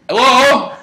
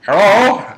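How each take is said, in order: First: High, loud "hello" to an intruder; calling out. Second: Put-on high, loud Irish-accented hello. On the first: Retold or imitated. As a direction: call out sharply towards the door. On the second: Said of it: "That's my Irish accent".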